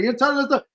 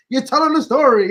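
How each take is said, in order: First: Said in the usual way. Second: Said louder, pressing the point; firm insisting repeat; emphatic. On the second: Real, not acted. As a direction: lean on it, louder.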